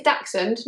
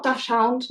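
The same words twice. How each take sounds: First: "Dachshund" said as DAK-sund; correct pronunciation. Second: "Dachshund" said as DASH-hound; wrong pronunciation. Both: Shown as a demonstration. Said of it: "not Dachshund".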